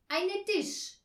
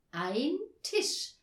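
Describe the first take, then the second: First: Loud, high learner's answer; proud. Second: Higher, louder corrected "Ein Tisch"; eager correction. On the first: Herr Marconi naming the table wrongly, proud. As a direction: announce "Eine Tisch" proudly, pitched high. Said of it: "sagte Herr Marconi stolz". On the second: Girls correcting their pupil's article, eager. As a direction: say "Ein Tisch" keenly, each word distinct. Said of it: "verbesserten Anja und Tina eifrig". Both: A narrator's reading.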